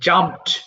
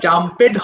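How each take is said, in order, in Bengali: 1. শেষের অংশটা শব্দের সাথে মিশে এক সিলেবলে বলা হয়। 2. শেষের অংশটা আলাদা একটা সিলেবল হিসেবে বলা হয়।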